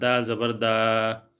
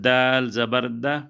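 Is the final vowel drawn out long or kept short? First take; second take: long; short. First: The final vowel is stretched out long. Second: The final vowel is kept short. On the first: The speaker calls it wrong. "बाद लोग इस तरह पढ़ते हैं, लेकिन ये इस तरह गलत है" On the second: The speaker calls it right. "छोटा करके पढ़ेंगे"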